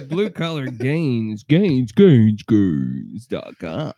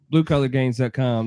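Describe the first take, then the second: First: Slow, sinking echo on "gains dot com"; hammed-up sponsor echo. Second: Said in the usual way. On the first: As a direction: repeat "gains" stepping steadily lower, slowing right down. Hammed-up echoing sponsor read.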